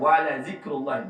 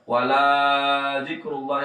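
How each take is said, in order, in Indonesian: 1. Vokal pada 'la' dibaca pendek. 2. Vokal pada 'la' dibaca panjang. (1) "la-nya itu jangan dipanjang" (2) "yang itu salah"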